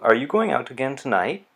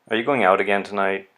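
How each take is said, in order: First: The pitch rises at the end. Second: The pitch falls at the end. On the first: It is a genuine question. "Rising intonation, it's a real question" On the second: It expresses exasperation, a complaint rather than a question. "let's try falling intonation"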